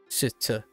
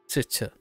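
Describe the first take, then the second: The two takes are said the same way.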